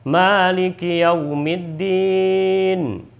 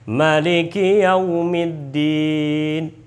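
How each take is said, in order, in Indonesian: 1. Vokal pertama 'ma' dibaca panjang. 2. Vokal pertama 'ma' dibaca pendek. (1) "Imam Hafiz yang kita biasa baca" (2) "Imam Qalun itu membaca ma itu dibacanya pendek"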